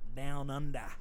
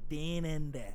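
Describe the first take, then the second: First: It is said in the speaker's plain accent. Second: It is said in a put-on Australian accent. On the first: "instead of like Down Under" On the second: "it's funny to me to say Dan Enda"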